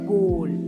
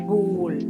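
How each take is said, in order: First: The vowel rhymes with goal. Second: The same.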